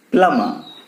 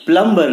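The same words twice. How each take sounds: First: "प्लम्बर" as PLUM-ma, no B; silent B. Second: "प्लम्बर" as plum-BER, B sounded; sounded B, wrong. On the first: Teacher answering whom we call, silent B. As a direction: say "प्लम्बर" with the B dropped. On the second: Teacher showing the mistake, sounded B. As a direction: say "प्लम्बर" with an audible B and R. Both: Shown as a demonstration. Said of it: "प्लम्बर नहीं".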